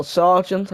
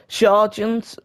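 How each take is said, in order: First: Said in the usual way. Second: Sargent said with a slight foreign accent, SAR-zhent; a touch of accent on Sargent; accented name. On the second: Real, not acted. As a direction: give Sargent a light put-on foreign accent. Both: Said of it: "I don't know why I put an accent on".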